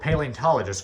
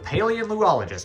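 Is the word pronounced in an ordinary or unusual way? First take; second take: ordinary; unusual. First: The word is pronounced in an ordinary, everyday way. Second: The word is pronounced in an unusual, marked way.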